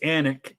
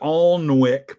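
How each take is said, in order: First: The l and w sounds are silent. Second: The l and w sounds are pronounced. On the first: The speaker calls it right. "that is how it's pronounced" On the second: The speaker calls it wrong. "It looks like Alnwick"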